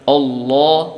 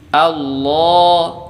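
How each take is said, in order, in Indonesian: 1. Vokal awalnya tebal. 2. Vokal awalnya tipis dan ringan. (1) "hamzah wasolnya juga ikut ditebalkan" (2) "hamzah wasol biasa ah"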